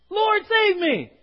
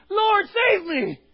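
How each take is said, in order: First: High, loud, slow cry for help; anguished cry. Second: High, loud, slow shout to the Lord; desperate shout. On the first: Preacher voicing Peter going under, a loud desperate cry. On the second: Preacher showing the church how to cry out, shouting. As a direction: cry out with no shame. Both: Acted.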